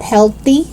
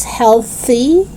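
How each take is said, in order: First: "healthy" as "helty"; hard T in "healthy". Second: Tongue out mid "healthy"; TH sound. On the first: Teacher showing learners the mistake, "healthy" with T. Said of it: "It's not healthy". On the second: Teacher correcting learners, "healthy" with clear TH. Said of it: "stick out your tongue". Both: Shown as a demonstration.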